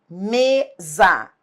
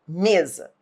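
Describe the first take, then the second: First: Mesa slowly split into a long ME, then ZA; syllable by syllable. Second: Said in the usual way. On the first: Shown as a demonstration. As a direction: pull apart the two syllables of Mesa. Teacher separates syllables to show stress. (Mesa devagar, sílaba por sílaba) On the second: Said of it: "olhe para mesa".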